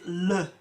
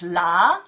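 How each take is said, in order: First: The syllable has a reduced 'uh' vowel. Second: The syllable has an open 'ah' vowel. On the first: The speaker calls it right. "we pronounce it le" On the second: The speaker calls it wrong. "we don't pronounce it la"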